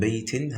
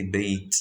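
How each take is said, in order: First: "baitin" with -in sounded at the end; full ending. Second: "bait" ending on a bare t, no -in; stopped form. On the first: Teacher showing the word before stopping, full ending. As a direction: say "baitin" keeping the final n. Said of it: "how do you stop on it?". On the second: Teacher showing how you stop on it, stopped form. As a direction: drop the ending, finish "bait" on t. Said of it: "You say bait". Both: Shown as a demonstration.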